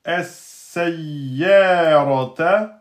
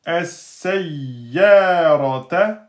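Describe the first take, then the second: The two takes are said the same way.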